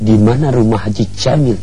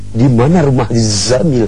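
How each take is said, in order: First: Jamil begins with a j sound. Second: Jamil begins with a z sound. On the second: "dia rubah pakai huruf Zai"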